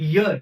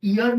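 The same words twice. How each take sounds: First: "ইয়ার" as "year", with a firm Y glide first; Y-first "ইয়ার", like English "year"; correct "year" reading. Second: "ইয়ার" as "ear", with no Y at the front; vowel-first "ইয়ার", like English "ear"; wrong "ear" reading. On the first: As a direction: push a consonant Y onto the start of "ইয়ার". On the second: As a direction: start "ইয়ার" straight on the ee vowel. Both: Shown as a demonstration. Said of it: "ইয়ার না, এটা ইয়ার".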